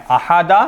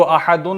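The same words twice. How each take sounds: First: अहादा ending in an open "-a"; fixed zabar ending. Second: अहादुन ending in a nunated "-un"; wrong "-un" ending. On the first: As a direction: say अहादा with "da" at the end, no n. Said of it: "मबनी हैं". (अहादा के आखिर में ज़बर) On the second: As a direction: say अहादुन with "dun" at the end. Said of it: "इसको अहादुन नहीं पढ़ेंगे". (अहादुन के आखिर में दो पेश) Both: Shown as a demonstration.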